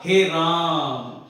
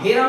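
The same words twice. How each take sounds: First: The vowel is stretched out long. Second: The vowels are said at normal short length. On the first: The speaker calls it right. "थोड़ा लंबा खींचते हैं" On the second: The speaker calls it wrong. "हे राम नहीं होता"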